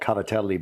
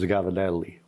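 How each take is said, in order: First: It begins with a K sound, full ending. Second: It begins with a G sound, softened middle. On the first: "which is what the pasta is really called" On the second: "you just kind of mash it together"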